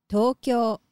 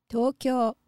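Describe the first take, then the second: The two takes are said the same way.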